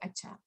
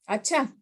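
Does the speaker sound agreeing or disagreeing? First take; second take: agreeing; disagreeing. First: It sounds agreeing and accepting. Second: It sounds disagreeing and unconvinced.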